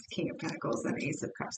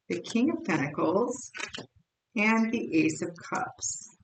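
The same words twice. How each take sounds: First: Softly whispered card names. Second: Said in the usual way. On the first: Shown as a demonstration. Tarot reader whispering the drawn cards to herself. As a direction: whisper the cards under your breath. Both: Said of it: "I'm sorry, the Eight of Wands".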